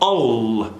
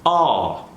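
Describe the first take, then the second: First: The final L is hit very hard. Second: The final L is barely heard. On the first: The speaker calls it wrong. "they hit that L extra hard" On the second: The speaker calls it right. "Do you hear any L at all?"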